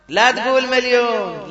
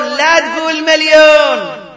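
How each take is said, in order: First: Said in the usual way. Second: Loud, high, slow "لا تقول مليون"; forbidding cry from the pulpit; emphatic shout. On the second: Real, not acted. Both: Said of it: "repeats the phrase for emphasis".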